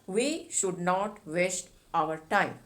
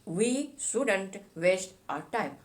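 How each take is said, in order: First: Should and not are said as two full words. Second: Should and not merge into one short word.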